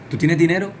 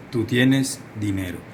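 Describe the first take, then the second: First: "¿Tú tienes dinero?" higher and louder, "tienes" punched, rising at the end; a bright, surprised ask with "tienes" stressed; rising question. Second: "¿Tú tienes dinero?" slow, with the end falling; slow falling statement. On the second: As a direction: state it slowly, letting "dinero" fall. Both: Shown as a demonstration. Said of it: "Una afirmación y una pregunta".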